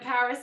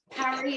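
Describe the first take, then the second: First: It is said with an English accent. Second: It is said with a French accent. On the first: "instead of Paris" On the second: "do the full French accent, Paris"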